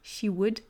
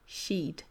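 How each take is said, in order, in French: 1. Il est prononcé en deux syllabes distinctes. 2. Il est fusionné en une seule syllabe.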